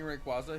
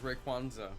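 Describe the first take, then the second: First: The name is said without an extra n. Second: The name is said with an extra n sound. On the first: The speaker calls it right. "instead of saying Rayquaza" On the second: The speaker calls it wrong. "he says Rayquanza"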